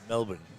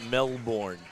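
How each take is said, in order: First: It is said in an Australian accent. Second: It is said in an American accent.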